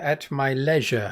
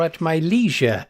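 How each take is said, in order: First: Leisure is said with a British pronunciation. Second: Leisure is said with an American pronunciation.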